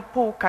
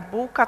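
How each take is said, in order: First: "półka" starting with an unvoiced p; voiceless first consonant. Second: "bułka" starting with a voiced b; voiced first consonant. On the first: Lecturer showing a minimal pair, "półka" with voiceless p. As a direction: make the p of "półka" voiceless, unlike b. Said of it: "od bezdźwięcznej". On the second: Lecturer showing a minimal pair, "bułka" with voiced b. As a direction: voice the b of "bułka", unlike p. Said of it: "rozróżnianiem głoski dźwięcznej". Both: Shown as a demonstration.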